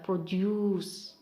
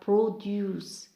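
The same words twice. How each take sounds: First: The stress is on the second syllable. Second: The stress is on the first syllable. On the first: It is used as a verb. "for verb we have produce" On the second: It is used as a noun. "For noun we have produce"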